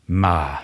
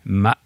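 First: It is said with the tone meaning but. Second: It is said with the tone meaning code. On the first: It means but. "Det betyr menn, eller som" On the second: It means code or horse. "Det betyr hest. Nei, unnskyld, kode"

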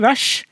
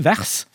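First: The r and s merge into one sound. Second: The r and s are sounded separately. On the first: "du må ikke si vers" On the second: "for sånn skriver vi det"

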